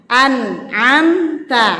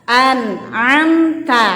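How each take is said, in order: The two takes are said the same way.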